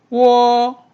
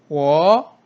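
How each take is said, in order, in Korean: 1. 음높이가 높고 평평하게 유지돼요. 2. 음높이가 중간에서 높게 올라가요.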